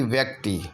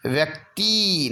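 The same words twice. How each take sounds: First: व्यक्ति with a brief ti; short final i. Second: व्यक्ति with a stretched tee; long final ee. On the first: Teacher giving the correction, व्यक्ति with short ti. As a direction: clip the end of व्यक्ति. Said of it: "बल्कि व्यक्ति". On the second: Teacher showing the error, व्यक्ति with long tee. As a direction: hold the end of व्यक्ति. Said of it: "नहीं बल्कि". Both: Shown as a demonstration.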